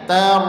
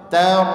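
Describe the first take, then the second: Both takes have the same delivery.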